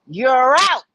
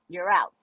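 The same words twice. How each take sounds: First: It is called out loudly like an umpire. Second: It is said weakly with tired, low energy.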